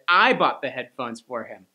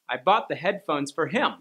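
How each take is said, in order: First: The stress falls on the word I. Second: The stress falls on the word him. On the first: The speaker, not someone else, did the buying. "you stressed a different word by accident" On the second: The gift went to him, not to someone else. "I didn't buy them for her, I bought them for him"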